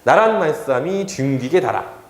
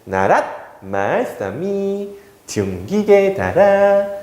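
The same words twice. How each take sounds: First: It is read plainly without marked tones. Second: It is read with marked pitch tones. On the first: "이제 편안하게 읽겠습니다" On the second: "사성법으로 읽었습니다"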